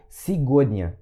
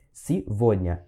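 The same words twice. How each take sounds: First: Сегодня read with a hard g as spelled; wrong spelling pronunciation. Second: Сегодня with the g said as v, sivodnya; correct pronunciation. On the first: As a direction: say сегодня with the g, as written. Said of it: "não ler como tá escrito". (сегодня pronunciado errado, com som de g) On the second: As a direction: say сегодня with a v sound. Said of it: "Esse G aqui tem som de V". (сегодня pronunciado certo, com som de v) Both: Shown as a demonstration.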